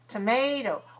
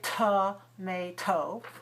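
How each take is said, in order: First: The first and last syllables are weak and short. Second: The first and last syllables are full, not weak. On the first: The speaker calls it right. "the first one is weak to, and the last one is also weak" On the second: The speaker calls it wrong. "So we don't want to say tomato"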